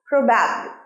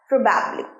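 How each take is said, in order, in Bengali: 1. জোরটা দ্বিতীয় সিলেবলে। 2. জোরটা দ্বিতীয় সিলেবলে।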